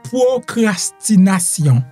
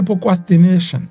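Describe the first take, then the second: First: The word has a French pronunciation. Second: The word has an English pronunciation. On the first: "en français" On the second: "en anglais on t'a prononcé le"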